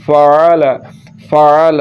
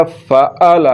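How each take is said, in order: First: FAAL with a throaty ayn in the middle; correct ayn. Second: फ़अल with a glottal catch instead of ayn; wrong, hamza for ayn. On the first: Teacher showing pupils how to read ayn, careful correct ayn. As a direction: sound the ayn in फ़अल from the throat. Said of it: "तो आइन पढ़ना है". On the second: Teacher showing pupils the mistake, hamza in place of ayn. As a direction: break फ़अल with a plain hamza stop. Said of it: "तो फिर ये हमज़ा पढ़ा जा रहा है". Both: Shown as a demonstration.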